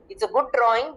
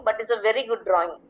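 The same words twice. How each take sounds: First: Said in the usual way. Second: "very" leaned on, the peak of the phrase; stress on very. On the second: Shown as a demonstration. Teacher shows children the emphasis word, stress on "very". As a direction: lean on "very" to show emphasis. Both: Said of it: "So very is the emphasis here".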